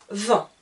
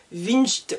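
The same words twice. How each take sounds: First: "Vingt" said "vɛ̃", a nasal vowel, no G or T; just a nasal "vɛ̃" and stop; correct pronunciation. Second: "vingt" as "vinʒt", with an I, a G and a T; wrong pronunciation. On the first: Teacher gives students the right form, nasal vowel only. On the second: Teacher mocks a spelled-out mistake for learners, letters sounded. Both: Shown as a demonstration. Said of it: "je ne dis pas".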